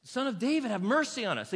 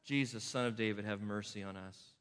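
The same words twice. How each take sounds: First: High, loud plea, Son of David; the blind men crying out loud. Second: Low, soft plea, mercy; quietly voicing the blind men's shout; retold shout. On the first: Retold or imitated. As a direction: call out for mercy. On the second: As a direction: say the cry under the breath. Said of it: "They shout".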